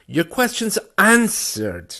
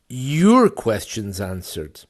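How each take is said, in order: First: The last word carries the stress. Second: The first word carries the stress. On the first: The questions are answered rather than ignored. "if I put the stress in the third place" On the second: The answers are to this listener's questions, not another's. "Not mine, but yours"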